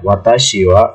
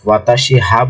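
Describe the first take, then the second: First: The particle is pronounced as wa. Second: The particle is pronounced as ha. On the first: The speaker calls it right. "ওয়াকে আমরা subject marker particle বলতে পারি" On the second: The speaker calls it wrong. "আমরা কিন্তু এটাকে ওয়াতাশি হা বলছি না"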